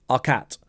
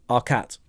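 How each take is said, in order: Both takes have the same delivery.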